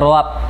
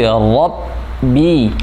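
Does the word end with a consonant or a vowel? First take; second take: consonant; vowel. First: The word ends on the b consonant. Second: The word ends with a clear i vowel. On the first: The speaker calls it wrong. "seperti dengarnya kayak Rabb" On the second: The speaker calls it right. "tapi Rabbi"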